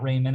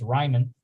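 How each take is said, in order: First: The first syllable sounds like 'ray'. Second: The first syllable sounds like 'rye'. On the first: The speaker calls it wrong. "It's not Raymond" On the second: The speaker calls it right. "it's Ryman because it's uh, German"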